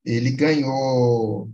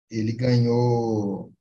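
The two takes are said the same way.

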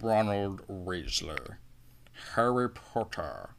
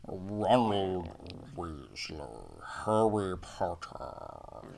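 First: Very slow, drawn-out Rickman drawl; Alan Rickman voice. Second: Very slow, nasal and regal; nasal regal Rickman. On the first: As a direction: savour each name like Snape. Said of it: "Alan Rickman in anything". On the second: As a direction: drag each name out nasally. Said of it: "overly nasally, really, like, regal". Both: Retold or imitated.

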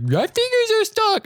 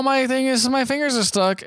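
First: Very high, slow goofy cry; hammed-up mock wail. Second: Mock pained whine. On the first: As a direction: overplay the trapped-fingers panic. Repeats slapstick cry, more overblown. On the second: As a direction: imitate a clown with trapped fingers. Acting out trapped-fingers slapstick.

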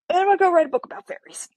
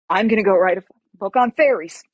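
First: Very high, quick sing-out; giddy add-on. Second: Louder, emphatic announcement; firm declaration. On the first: Patient tacking fairy book onto medical plans, giddily. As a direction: toss it in fast and way up high. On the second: Patient announcing her new career plan, firmly. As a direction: declare it with punch. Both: Retold or imitated.

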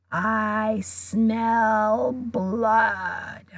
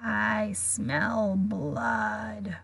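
First: Very slow, fuller murderous drawl; cold monster voice. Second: Very slow, softer murderous drawl; cold monster voice. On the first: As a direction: stretch it out, hungrier and stronger. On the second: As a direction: savour each word, far off and fading. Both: A narrator's reading. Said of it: "same cold, murderous voice".

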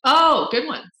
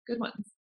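First: Said in the usual way. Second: Quiet repeat. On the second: Real, not acted. Repeats reaction softly.

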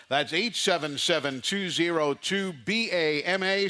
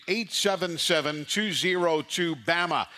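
First: "B A M A" spelled as four separate letters. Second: Said in the usual way. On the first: Shown as a demonstration. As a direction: spell out "B A M A" one letter at a time.

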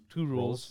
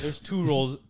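First: "rules" said again with a clean long oo vowel; clear rules. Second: "rules" comes out close to "roles", with an o vowel; "rules" said with a rounded oh so it sounds like "roles"; rules sounding like roles. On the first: Shown as a demonstration. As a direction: correct "rules" to a clear oo sound. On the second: Real, not acted.

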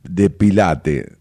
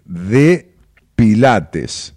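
First: Pilate slow, no final s; drawn-out pilate with the s dropped. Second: Pilates loud and slow with a clear s; final s stressed. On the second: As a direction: drag out pilates, punch the s. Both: Shown as a demonstration.

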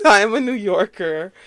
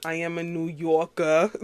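First: "Yorker" with a clear final R, louder, after a laugh; R pronounced. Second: Lightly put-on New York accent, dropping the final R of "Yorker". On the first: Real, not acted. Podcaster correcting her own New York accent, "Yorker" with a full R. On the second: Shown as a demonstration. Podcaster assuring listeners where she's from, playful New York accent.

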